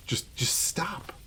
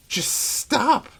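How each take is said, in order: First: Whispered plea. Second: Said in the usual way. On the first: Real, not acted. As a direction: whisper "just, just stop" slowly, breathy and pleading. Exasperated plea about Christmas.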